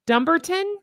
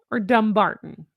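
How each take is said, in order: First: "Dumbarton" stressed on the first syllable: DUM-barton. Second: "Dumbarton" stressed on the middle syllable: dum-BAR-ton. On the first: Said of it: "I like putting the emphasis on dumb". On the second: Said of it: "Am I putting the wrong emphasis". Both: Shown as a demonstration.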